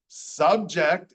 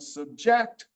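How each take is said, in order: First: The stress is on the first syllable. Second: The stress is on the second syllable. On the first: It is used as a noun. "is a noun" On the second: It is used as a verb. "is a verb"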